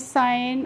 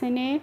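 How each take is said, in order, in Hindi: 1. स्वर 'eye' ध्वनि है। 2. स्वर 'eh' ध्वनि है। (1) "आप पढ़ लेंगे" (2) "इस तरीके से नहीं पढ़ना है"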